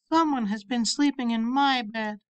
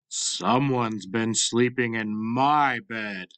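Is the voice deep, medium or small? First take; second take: small; deep. First: It is said in a tiny, small voice. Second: It is said in a big, deep voice.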